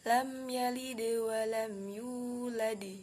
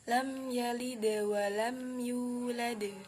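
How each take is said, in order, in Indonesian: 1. Huruf d di akhir bergema dengan vokal i. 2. Huruf d di akhir bergema dengan bunyi netral. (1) "Kesalahan saat mengucapkan qalqalah yang dipengaruhi oleh harokat kasroh" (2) "Maka yang benar adalah"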